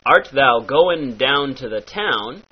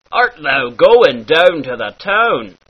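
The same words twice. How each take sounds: First: Said in the usual way. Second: "down" and "town" with a half-Scottish ow; light Scottish ow. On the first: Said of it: "turns into". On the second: Shown as a demonstration. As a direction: bend the ow in "town" toward the Scots. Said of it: "very Scottish sound".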